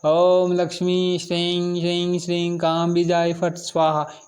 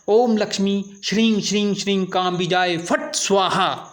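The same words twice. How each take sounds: First: It is recited slackly, with little energy. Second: It is recited forcefully, with a sharp 'phat'. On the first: The speaker calls it wrong. "ऐसे नहीं ढीलेपन में" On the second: The speaker calls it right. "इस तरह से बोलना है, फट की आवाज़ आपकी तेजी से निकलना चाहिए"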